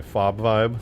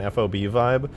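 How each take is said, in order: First: "fob" said as one syllable, rhyming with job; acronym as word. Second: "F O B" said as three separate letters; spelled-out acronym. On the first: Streamer corrects own wording, "fob" as a single word. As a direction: run the letters together into "fob". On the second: Streamer describing the base's feel, "F O B" letter by letter. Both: Real, not acted. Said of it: "Nobody says F O B".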